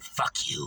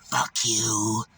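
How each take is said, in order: First: Low unvoiced whispered curse; whispered mock curse. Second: Lower, flat imitation of her curse; low mock curse. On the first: Beggar's parting curse retold, low whisper. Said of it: "She said". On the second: Beggar cursing the narrator as she leaves, low growled curse. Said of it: "she went".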